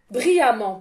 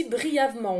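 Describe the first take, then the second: First: "Brillamment" said with firm corrective emphasis; correcting herself, "Brillamment"; corrected word. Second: "brièvement" said by mistake, in place of brillamment; the slip "brièvement", said plainly; erroneous "brièvement"; wrong word. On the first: Shown as a demonstration. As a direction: fix it to "Brillamment". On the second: Real, not acted. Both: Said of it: "pas brièvement".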